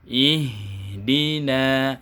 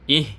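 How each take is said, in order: First: The h sound flows smoothly into dina. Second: The h sound is cut off before dina. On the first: The speaker calls it right. "bunyi H-nya harus mengalir sampai ke huruf berikutnya" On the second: The speaker calls it wrong. "Terputus maksudnya seperti ini"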